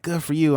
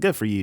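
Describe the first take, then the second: First: It sounds warm and sincere. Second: It sounds dismissive and uninterested. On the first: The speaker is genuinely happy for them. "I'm glad" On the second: The speaker does not really care. "Like you know whatever"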